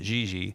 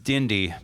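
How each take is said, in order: First: The name is said with soft j-like sounds. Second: The name is said with plain d sounds. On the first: This is how it is said in Portuguese. "the Portuguese pronunciation is" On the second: This is how the spelling reads. "it reads Dindy"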